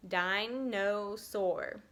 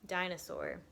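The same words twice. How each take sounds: First: "Dinosaur" very slowly, di, no, saur; each syllable of "Dinosaur" held separately; split into syllables. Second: Said in the usual way. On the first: Shown as a demonstration. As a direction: stretch "Dinosaur" into three drawn-out beats. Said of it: "That's three syllables". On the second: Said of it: "Or let's try".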